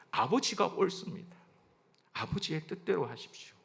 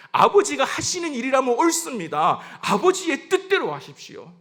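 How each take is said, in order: First: Soft, yielding confession; submissive prayer. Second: High, loud confession of surrender; fervent declaration. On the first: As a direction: surrender quietly to the Father. Jesus' submission, first quiet take. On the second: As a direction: proclaim submission to the Father with force. Same submission, repeated with force. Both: Acted.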